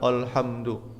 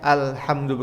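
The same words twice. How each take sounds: First: The first vowel is heavy and sounds like 'o'. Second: The first vowel is thin and sounds like 'a'. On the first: The speaker calls it wrong. "bukan alhamdu. Bukan o tapi a" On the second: The speaker calls it right. "Jadi kita bacanya alhamdu"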